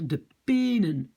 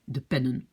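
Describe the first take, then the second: First: The first vowel is long. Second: The first vowel is short. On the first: The speaker calls it wrong. "je vais lire de penen" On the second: The speaker calls it right. "je dois en fait fermer ma syllabe ouverte"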